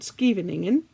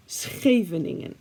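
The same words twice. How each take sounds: First: Scheveningen with a hard English sk at the start; wrong English pronunciation. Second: Scheveningen with a throaty Dutch sch, sxe; Dutch pronunciation. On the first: Showing the English mispronunciation of Scheveningen. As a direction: say Scheveningen the wrong way, skee-ven-ing-en. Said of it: "so not Scheveningen". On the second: Teaching viewers the proper Dutch Scheveningen. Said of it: "repeat after me". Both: Shown as a demonstration.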